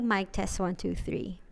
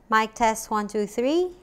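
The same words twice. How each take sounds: First: The voice has an audible background hiss. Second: The voice has no audible background hiss. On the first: The mic is recorded through a camera. The speaker calls it wrong. "kapag nasa camera mode siya, may hiss na naririnig" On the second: The mic is recorded through a smartphone. The speaker calls it right. "Kapag naka-smartphone naman, ... much better yung quality niya"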